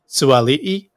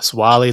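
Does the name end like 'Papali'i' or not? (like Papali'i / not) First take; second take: like Papali'i; not. First: The name begins 'Sua' and ends like 'Papali'i'. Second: The name is said without that 'Papali'i' ending. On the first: The speaker calls it right. "it's actually pronounced Joseph Suali'i" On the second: The speaker calls it wrong. "instead of Swali, like we've been pronouncing"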